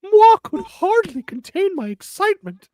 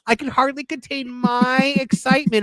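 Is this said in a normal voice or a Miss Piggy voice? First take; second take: Miss Piggy; normal voice. First: It is said in a put-on Miss Piggy voice. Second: It is said in the reader's normal voice.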